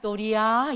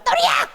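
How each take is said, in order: First: It is said softly, with a gentle wave-like tone. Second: It is said harshly, with dislike.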